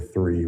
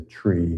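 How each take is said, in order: First: The word begins with a soft 'th' sound. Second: The word begins with a plain 't' sound. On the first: The speaker calls it wrong. "We don't say three" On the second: The speaker calls it right. "we say tree, because the H's are a little fuzzy on the radio"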